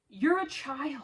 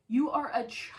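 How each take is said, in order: First: Said in the usual way. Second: Contemptuous whisper. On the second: Real, not acted. Repeated accusation, then whispered.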